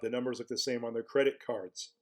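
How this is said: Cards is said with an American r-colored vowel.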